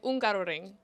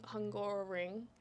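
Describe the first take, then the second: First: The name is said the Hungarian way. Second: The name is said the English-speaking way. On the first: The speaker calls it right. "They say Ungaroring" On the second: The speaker calls it wrong. "we say we're off to the Hungaroring"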